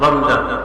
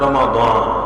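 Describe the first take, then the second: First: The middle consonant is a 'z' sound. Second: The middle consonant is a 'd' sound. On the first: This is the Persian pronunciation. "ফার্সি উচ্চারণে রমজান" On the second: This is the pure Arabic pronunciation. "রমাদান আরবি বিশুদ্ধ উচ্চারণ"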